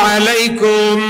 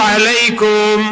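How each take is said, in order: Both takes have the same delivery.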